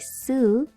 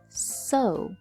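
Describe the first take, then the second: First: The vowel is not an 'oh' sound. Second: The vowel is an 'oh' sound. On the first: The speaker calls it wrong. "we don't say sew" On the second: The speaker calls it right. "it makes an O sound. ... we say sew"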